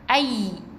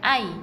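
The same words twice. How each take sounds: First: The y sound is pressed and doubled. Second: The y sound is short and single. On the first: The speaker calls it right. "Jadi kena tekan" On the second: The speaker calls it wrong. "bukan ai"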